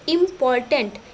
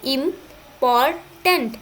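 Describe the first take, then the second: First: Said in the usual way. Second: इम्पॉर्टेंट slowly in three pieces, "im ... por ... tant"; split into syllables. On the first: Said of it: "लेते हैं एक example". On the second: Shown as a demonstration. Teacher showing three syllables, इम्पॉर्टेंट slowly split im ... por ... tant. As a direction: break इम्पॉर्टेंट with clear pauses after im and por. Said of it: "तीन भागों में".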